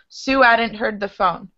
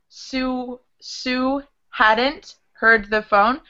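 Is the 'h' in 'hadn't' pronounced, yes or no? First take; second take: no; yes. First: The h in 'hadn't' is dropped and linked with a w sound. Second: The h in 'hadn't' is clearly pronounced.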